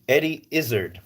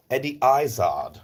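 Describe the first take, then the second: First: Said in the usual way. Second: Name redone with British vowels; British accent. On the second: Shown as a demonstration. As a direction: say IZZARD the British way, EYE-zahd.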